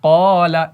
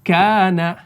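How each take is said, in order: First: क़ाला thick and rounded, like aw-la; full-mouthed क़ाला; thick reading; heavy reading. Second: काना light, with a clear front aa, not rounded; thin reading. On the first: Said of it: "इसको मोटा पढ़ना है". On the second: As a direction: say काना thin and bright-voweled. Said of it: "इसी तरीके से अगर पतला पढ़ेंगे". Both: Shown as a demonstration.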